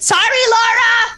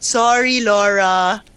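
First: It is said loudly and abruptly. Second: It is said softly and smoothly.

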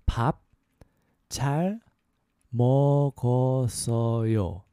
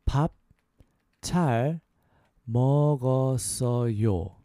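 Both takes have the same delivery.

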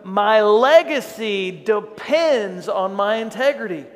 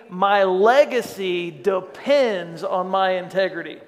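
First: It is said with strong, heartfelt conviction. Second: It is said plainly, without extra conviction.

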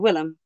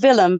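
First: The name is said with an English pronunciation. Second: The name is said with a Dutch pronunciation. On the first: This is how a British audience says it. "we're a British audience, and so we say Willem" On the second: This is how it is said in the Netherlands. "In Holland, it would be called Willem"

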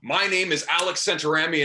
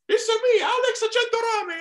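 First: It is said in his own normal voice. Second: It is said in a Super Mario impression.

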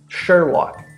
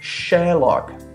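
First: It is said in an American accent. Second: It is said in a British accent. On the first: "This is American pronunciation"

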